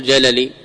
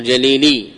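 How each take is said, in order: First: جللي with the long middle ee dropped; wrong form, jalali. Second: جليلي keeping the long middle ee; correct form, jalili. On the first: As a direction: say جللي as ja-la-LEE, short middle vowel. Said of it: "لا تقل". (جللي بحذف الياء وفتح اللام) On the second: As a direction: say جليلي as ja-lee-LEE. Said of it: "بإبقاء الياء". (جليلي بإبقاء الياء ومدها) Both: Shown as a demonstration.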